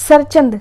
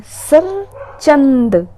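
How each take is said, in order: First: Said in the usual way. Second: सरचंद stretched very slowly; drawn-out word. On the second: Shown as a demonstration. Teacher drags out सरचंद slowly so students memorise it.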